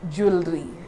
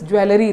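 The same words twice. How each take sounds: First: The vowel after the W is silent. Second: The vowel after the W is sounded. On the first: The speaker calls it right. "This E becomes silent" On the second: The speaker calls it wrong. "this W E L here is pronounced as well. But it is absolutely wrong"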